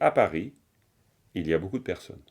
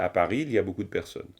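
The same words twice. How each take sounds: First: There is a pause after Paris. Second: It is said without a pause after Paris.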